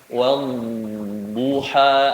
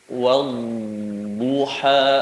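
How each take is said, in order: Both takes have the same delivery.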